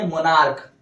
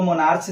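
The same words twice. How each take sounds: First: मोनार्क ending in a hard "k"; correct "k" reading. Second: मोनार्च ending in "ch" as in march; wrong "ch" reading. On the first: Teacher giving the right reading, मोनार्क with a final "k" sound. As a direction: say मोनार्क as "mo-nark". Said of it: "उच्चारण क्या है? क". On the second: Teacher warning against a misreading, मोनार्च ending in "ch". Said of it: "इसको मोनार्च नहीं पढ़ेंगे". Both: Shown as a demonstration.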